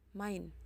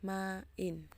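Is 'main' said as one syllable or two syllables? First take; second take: one; two. First: The vowels merge into one syllable. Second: The vowels are split into two syllables. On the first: The speaker calls it wrong. "kita tidak bisa mengatakan main" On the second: The speaker calls it right. "tetapi main"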